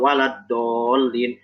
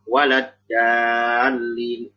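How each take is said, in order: First: The d sound is plain, followed by an o vowel. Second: The d sound is plain, made with the tongue tip. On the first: "dal tapi bervokal o. Nah ini keliru" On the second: "Jangan dibaca walad dalin ... Nah ini keliru"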